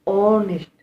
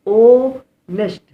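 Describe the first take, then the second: First: Said in the usual way. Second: ऑनेस्ट stretched very slow and loud, higher, no h sound; drawn-out model word. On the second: Shown as a demonstration. Teacher to class, modelling ऑनेस्ट slow and loud. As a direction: stretch out ऑनेस्ट loudly, starting on the vowel. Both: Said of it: "यहाँ पर हॉनेस्ट नहीं पढ़ते, ऑनेस्ट पढ़ते हैं".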